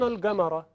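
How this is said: The word is said with a hard g sound. This is a local colloquial pronunciation. "به جای جیم گاف گفت"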